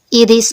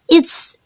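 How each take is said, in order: First: It is said as two full separate words. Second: It is said as one contracted syllable. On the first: "bisa dibaca it is" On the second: "bisa disingkat menjadi it's"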